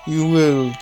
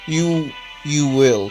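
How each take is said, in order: First: It is read in a put-on character voice. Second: It is read in a plain, natural voice. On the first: The speaker calls it wrong. "Why did I do that voice?" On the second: The speaker calls it right. "That's how I should have read that line"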